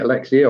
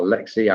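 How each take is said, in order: First: Alexia with a final "ee-uh"; trying out Alexia, ending in "see-uh"; unsure name pronunciation. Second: Alexia cut short to "uh-LEK-see"; trying out Alexia as "a-Lexi"; alternative name pronunciation. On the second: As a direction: say Alexia without the final "uh". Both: Shown as a demonstration. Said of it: "I don't know what they call these".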